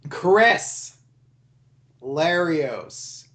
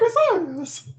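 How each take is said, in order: First: It is said in a normal voice. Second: It is said in a squeaky high-pitched voice.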